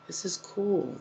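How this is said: It sounds calm, gentle and peaceful.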